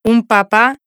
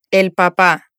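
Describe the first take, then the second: First: A model reading of "Un papá" with the pitch left up, as if more words follow; "Un papá" said as an unfinished item with an upward lilt; rising list tune. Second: "el papá" said a little lower, with the pitch dropping to close on "papá"; a model reading of "el papá" that falls at the end to finish the phrase; "el papá" said as a settled statement, landing low; falling final tune. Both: Shown as a demonstration. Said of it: "Прослушайте и повторите за диктором".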